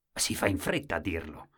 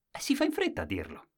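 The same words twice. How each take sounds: First: Said in the usual way. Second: Quick aside. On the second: A narrator's reading.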